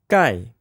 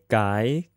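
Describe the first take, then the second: First: The pitch falls sharply from high to low. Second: The pitch rises from mid to high.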